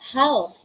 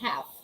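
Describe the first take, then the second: First: The L sound is pronounced. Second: The L sound is silent. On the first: The speaker calls it wrong. "We don't say half" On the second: The speaker calls it right. "We say half"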